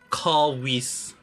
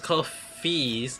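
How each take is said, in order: First: The middle consonant is a w sound. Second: The middle consonant is an f sound. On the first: The speaker calls it wrong. "but I pronounce it cowies" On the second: The speaker calls it right. "it pronounced as coffees"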